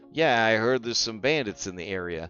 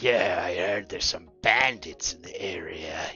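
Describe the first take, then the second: First: It is said in the speaker's own plain voice. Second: It is said in a put-on gruff character voice. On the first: The narrator describes the character's voice instead of acting it. "a narrative game where they're just like" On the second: The narrator acts out the character directly. "you don't have to do a character voice for it"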